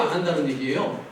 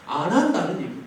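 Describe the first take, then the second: First: "안 한다는 얘기예요?" ending in a soft rising question; questioning rise. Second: "안 한다는 얘기예요." ending in a falling, settled statement; firm answer. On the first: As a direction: ask it as an open question, rising at the end. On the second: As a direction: answer your own question firmly, falling. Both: Shown as a demonstration. Rhetorical question then answer.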